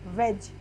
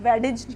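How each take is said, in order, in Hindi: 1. कोई अलग "d" ध्वनि सुनाई नहीं देती। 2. एक अलग "d" ध्वनि सुनाई देती है। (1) "हमने इसको वेज क्यों पढ़ा" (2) "वेडिज क्यों नहीं पढ़ा"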